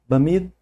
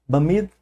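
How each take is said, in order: The two takes are said the same way.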